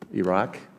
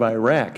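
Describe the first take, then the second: First: It is said in a standard, non-regional pronunciation. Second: It is said in a Michigan regional pronunciation.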